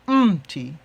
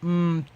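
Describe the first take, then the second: First: The stress falls on the initial M. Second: The stress falls on the final syllable. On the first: The speaker calls it right. "you have to be careful to emphasize the the M" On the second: The speaker calls it wrong. "instead of saying"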